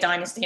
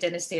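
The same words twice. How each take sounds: First: It is said the American way. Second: It is said the British way. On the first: "we say Dynasty in America" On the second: "we say Dynasty in England"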